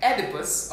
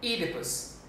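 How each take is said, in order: First: "Oedipus" as ED-ih-pus; short e to open "Oedipus"; first pronunciation. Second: "Oedipus" as EE-dih-pus; long ee to open "Oedipus", said more softly; alternative pronunciation. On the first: Diction teacher giving one option for Oedipus, careful pronunciation. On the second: Diction teacher offering the other option, careful pronunciation. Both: Shown as a demonstration. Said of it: "or we say".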